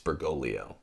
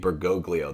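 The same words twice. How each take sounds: First: The second g is not pronounced as a hard g. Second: The second g is pronounced as a hard g. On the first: The speaker calls it right. "It's Bergoglio" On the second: The speaker calls it wrong. "People pronounce that second G"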